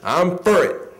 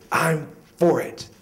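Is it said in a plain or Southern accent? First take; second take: Southern; plain. First: It is said in a Southern accent. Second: It is said in a plain accent.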